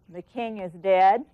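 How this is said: It is said flatly with little reaction.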